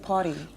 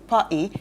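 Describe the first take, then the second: First: It is said with an American accent. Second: It is said with a British accent. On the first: "the Americans say party" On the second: "the English people in the country say the party"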